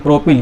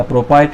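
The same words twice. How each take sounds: First: प्रोपिल ending like English "pill"; short-i ending. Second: प्रोपाइल ending like English "pile"; long "eye" ending. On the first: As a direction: say प्रोपिल with a short i in the last syllable. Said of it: "कुछ लोग ब्यूटिल बोलते हैं". (प्रोपिल, आख़िर में छोटी इ के साथ "पिल") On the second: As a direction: say प्रोपाइल with an "eye" vowel in the last syllable. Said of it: "कुछ लोग ब्यूटाइल बोलते हैं". (प्रोपाइल, आख़िर में "आइ" के साथ "पाइल") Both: Shown as a demonstration.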